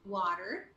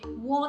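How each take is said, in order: First: It is said in an American accent. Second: It is said in a British accent. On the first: "Americans, they would say water" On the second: "for British, British, they would say water"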